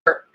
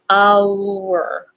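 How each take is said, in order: First: It is reduced to a short weak 'er' sound. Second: It is said slowly with its full vowel sounds. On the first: "in daily conversations, usually it becomes just er" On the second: "if I pronounce it really slowly"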